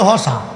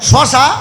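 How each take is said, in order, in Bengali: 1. শব্দটি h ধ্বনি দিয়ে শুরু হয়। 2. শব্দটি sh ধ্বনি দিয়ে শুরু হয়।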